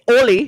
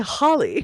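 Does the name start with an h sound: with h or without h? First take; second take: without h; with h. First: The name starts without an h sound. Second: The name starts with an h sound. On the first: The speaker calls it wrong. "You don't say Oli" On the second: The speaker calls it right. "You say Holly"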